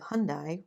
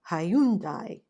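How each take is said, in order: First: The name is said with two syllables. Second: The name is said with three syllables. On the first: This is the usual pronunciation back home and in Canada. "which is how they say it where I'm from" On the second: This is how an Irish speaker said the name. "the Irish guy was like Hyundai"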